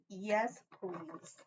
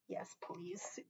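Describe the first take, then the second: First: Said in the usual way. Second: Soft breathy whisper; whispered yes please. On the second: Real, not acted. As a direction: whisper it close to the mic. Whispered after a kiss.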